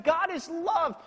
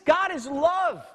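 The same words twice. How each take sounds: First: God is love, slow, God punched high; stress on God again. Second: God is love with God hit high and slow; stress on God. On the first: Preacher restating God is love, slow and high. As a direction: lean hard on God. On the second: Preacher repeating God is love, God stressed slowly. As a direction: hammer the word God. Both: Shown as a demonstration.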